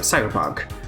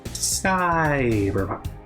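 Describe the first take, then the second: First: The word is said crisply with normal vowels. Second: The word is slurred with long, stretched vowels.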